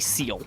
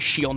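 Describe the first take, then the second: First: The word begins with an 's' sound. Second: The word begins with a 'sh' sound. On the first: The speaker calls it wrong. "not a seal" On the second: The speaker calls it right. "I am pronouncing that correctly. It is called a shield"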